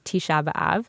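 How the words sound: The vowels are full, in an Israeli way. "the sort of real Ivrit, right, Israeli pronunciation"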